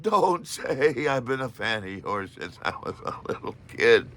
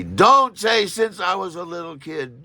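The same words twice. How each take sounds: First: Laughing warning. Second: Slow, loud, higher inner warning; frantic inner voice shouting a slow warning; inner scream. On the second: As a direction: yell the warning at yourself, slowly. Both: Retold or imitated. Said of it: "my mind screams at me".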